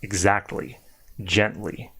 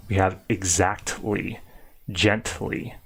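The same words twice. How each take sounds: First: Exactly and gently with a lighter, natural T; more natural. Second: Exactly and gently said slowly with a hard, strong T; over-exaggerated T. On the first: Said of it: "a little bit more natural". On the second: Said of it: "I'm over-exaggerating it". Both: Shown as a demonstration.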